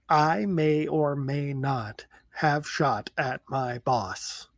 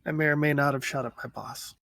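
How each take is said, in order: First: It is said slowly. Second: It is said at normal speed.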